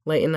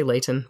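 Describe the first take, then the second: First: "Layton" with the T swallowed, like LAY-'n; local pronunciation. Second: "Layton" as LAY-tun, in two clear syllables; own pronunciation. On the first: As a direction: say "Layton" with a glottal stop for the T. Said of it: "I say Layton, but whatever". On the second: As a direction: sound the T in "Layton". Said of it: "I say Layton". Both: Shown as a demonstration.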